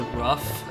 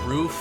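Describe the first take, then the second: First: The word is said in a regional pronunciation. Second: The word is said in a standard pronunciation. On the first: "I'll say rough sometimes" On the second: "instead of saying roof"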